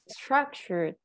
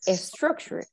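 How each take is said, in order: First: No extra vowel sound comes before the s. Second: An extra vowel sound comes before the s. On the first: The speaker calls it right. "We say" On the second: The speaker calls it wrong. "We don't say a structure"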